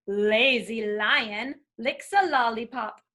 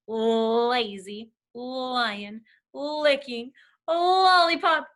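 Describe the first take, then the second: First: Said in the usual way. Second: Very slow, each L in "Lazy lion, licking a lollipop" held long; drawn-out L sounds. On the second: Shown as a demonstration. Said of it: "So many L sounds".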